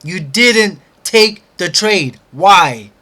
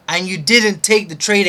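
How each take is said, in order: First: Loud, slow, every word of "You didn't take the trade" hammered; slow emphatic accusation. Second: Loud, rising stress on "take"; angry accusation. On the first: Repeating the accusation, slower. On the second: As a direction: accuse yourself, leaning on "take". Repeating the accusation. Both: Real, not acted.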